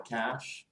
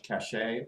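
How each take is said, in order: First: Said in the usual way. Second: "cache" pronounced cash-AY; two-syllable pronunciation. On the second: Shown as a demonstration. Computer user warning of too much cache, said cash-ay. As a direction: add an -ay ending to "cache", as in cachet. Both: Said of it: "It's called cache or cache".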